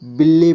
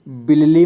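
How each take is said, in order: First: "बिल्ली" as bil-li, the double ल joined; correct joined reading. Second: "बिल्ली" misread with the ल broken up into two syllables; wrong reading. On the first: Teacher showing learners how to read it, "बिल्ली" joined as bil-li. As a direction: say "बिल्ली" in two syllables, with no vowel between the ल sounds. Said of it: "इसे बिल्ली पढ़ना". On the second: Teacher warning learners how not to read it, "बिल्ली" wrongly split as bi-la-li. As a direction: say "बिल्ली" as bi-la-li, not joining the double ल. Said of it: "इसे बिल्ली मत पढ़ना". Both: Shown as a demonstration.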